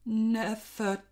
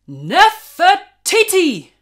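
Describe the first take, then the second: First: It is said in a nervous, unsure voice. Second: It is said in a firm, confident voice.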